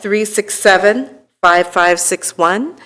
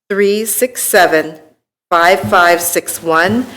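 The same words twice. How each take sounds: First: It is said at a normal speed. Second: It is said slowly.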